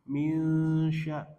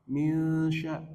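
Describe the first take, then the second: Both takes have the same delivery.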